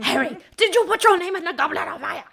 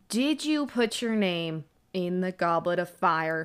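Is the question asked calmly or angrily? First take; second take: angrily; calmly. First: The question is asked angrily. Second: The question is asked calmly.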